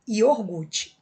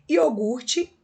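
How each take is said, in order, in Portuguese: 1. O som do R vem antes do G. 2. O som do R vem depois do G.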